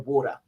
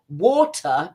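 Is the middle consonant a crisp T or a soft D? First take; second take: soft D; crisp T. First: The middle T is softened to a D. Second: The middle T is crisp and sharp.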